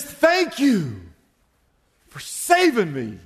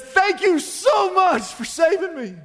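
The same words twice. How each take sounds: First: Acted thanks. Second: Very high, effusive acted thanks; gushing gratitude. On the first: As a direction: thank your rescuer firmly, falling away at the end. Rescued man thanks his saviour. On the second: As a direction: pour out overwhelming thanks to your rescuer. Retold rescued man, now overwhelmed with gratitude.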